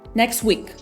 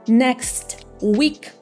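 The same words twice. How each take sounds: First: The two words blend into one. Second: The two words are said separately.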